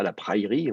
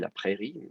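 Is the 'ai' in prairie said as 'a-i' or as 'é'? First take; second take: a-i; é. First: The 'ai' is said as two sounds, a-i. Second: The 'ai' is said as a single é sound. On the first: The speaker calls it wrong. "on ne dit pas la praillerie" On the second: The speaker calls it right. "on dit la prairie"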